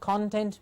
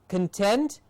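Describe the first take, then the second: First: The first syllable has a full 'or' vowel. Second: The first syllable has a weak, reduced vowel. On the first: It means the ingredients of something. "con with the or sound, content means ingredients" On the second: It means a feeling of satisfaction. "gives us the feeling of satisfaction"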